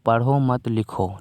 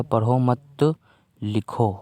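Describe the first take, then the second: First: "पढ़ो" के बाद हल्का ठहराव, "मत लिखो" साथ में; "मत लिखो" को एक साथ जोड़कर बोलें; पढ़ो पर विराम. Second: "पढ़ो मत" साथ में, फिर साफ़ ठहराव, फिर "लिखो"; "मत" के बाद रुककर "लिखो" अलग बोलें; मत के बाद विराम. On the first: ("पढ़ो", फिर मनाही में "मत लिखो") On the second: ("पढ़ो मत" जोड़कर, "लिखो" से पहले विराम) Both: Shown as a demonstration. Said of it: "एक छोटे से विराम की वजह से".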